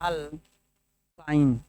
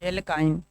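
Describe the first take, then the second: First: The first vowel sounds like 'a'. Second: The first vowel sounds like 'e'. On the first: "एल्काइन बोलिए या अल्काइन बोलिए" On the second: "एल्काइन बोलिए या अल्काइन बोलिए"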